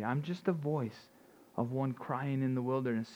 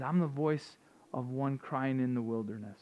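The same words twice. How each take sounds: First: Humble, quieter. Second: Said in the usual way. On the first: Retold or imitated. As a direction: hold the words back as a humble man. John restates his calling humbly.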